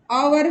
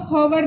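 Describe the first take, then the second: First: ओवर opening straight on the vowel; hour modelled as ओवर, h-less; silent H. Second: होवर with a voiced-out initial h; होवर as spelt, h first; sounded H. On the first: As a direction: keep the h silent, saying ओवर. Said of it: "फिर भी इसका उच्चारण". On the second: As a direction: misread hour as होवर, h pronounced. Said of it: "नहीं पढ़ेंगे". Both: Shown as a demonstration.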